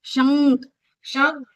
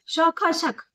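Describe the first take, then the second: First: शंख with a humming nasal n. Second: शक said plainly, sounds split; no nasal. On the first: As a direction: ring the n of शंख in the nose. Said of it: "बिंदी के साथ बोलेंगे". (बिंदी के साथ शंख) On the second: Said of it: "बिना बिंदी के बोलो". (बिना बिंदी के शक) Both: Shown as a demonstration.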